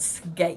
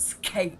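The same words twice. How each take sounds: First: The k is soft, without a puff of air. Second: The k is strong, with a puff of air. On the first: The speaker calls it right. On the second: The speaker calls it wrong.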